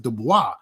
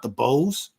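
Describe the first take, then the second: First: The name ends with a 'bwah' sound. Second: The name ends with a 'bose' sound. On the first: The speaker calls it right. "his name is Dubois" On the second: The speaker calls it wrong. "It's not DuBose. ... talking about some speakers"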